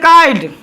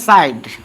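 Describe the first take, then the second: First: The word starts with a k sound. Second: The word starts with an s sound. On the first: "नहीं पढ़ेंगे काइड" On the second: "नहीं पढ़ेंगे साइड"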